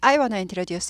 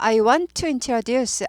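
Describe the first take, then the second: First: 'Want to' is run together quickly as 'wanna'. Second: Each word of 'want to' is said fully.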